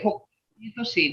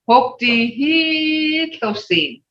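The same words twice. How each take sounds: First: It is said with a plain, ordinary tone. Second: It is said with a changed, emphatic tone. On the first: The woman is pretty. "When you just say hope he so seen, he just you're saying I'm looking at a pretty girl" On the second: The woman is very pretty. "But now listen to my tone"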